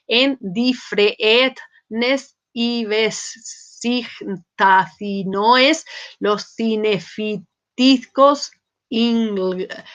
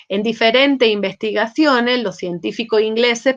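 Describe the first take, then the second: First: "En diferentes investigaciones, los cinefitiscos ingleses" read very slowly, sounding out each scrambled letter. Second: Said in the usual way. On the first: Shown as a demonstration. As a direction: spell out "cinefitiscos" syllable by syllable, slowly. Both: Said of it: "pero si uno lo lee fonéticamente no dice eso".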